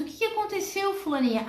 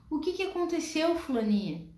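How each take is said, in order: First: Startled mother. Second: Calm mother. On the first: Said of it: "E aí pergunta". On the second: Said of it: "olha nos olhos daquela criança". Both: Acted.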